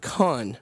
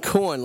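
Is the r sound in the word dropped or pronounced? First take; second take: dropped; pronounced. First: The r sound is dropped, Boston style. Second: The r sound is clearly pronounced. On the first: The speaker calls it wrong. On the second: The speaker calls it right.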